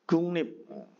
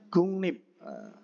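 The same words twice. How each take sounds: Both takes have the same delivery.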